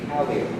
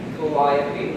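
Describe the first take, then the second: First: The stress falls where New Orleans speakers put it. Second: The stress falls where standard English puts it. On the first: It carries the French stress pattern into English. "we say Calliope, which is again just a strict transfer from French" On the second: It follows ordinary English usage. "We don't say Calliope"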